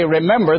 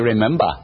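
First: It is said in the speaker's own home accent. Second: It is said in a New England accent. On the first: This is how the speaker's own region says it. "where we say remember" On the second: This is how people in New England say it. "they say remember"

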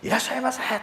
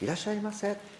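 First: It is said in a big, loud voice. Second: It is said in a small, quiet voice.

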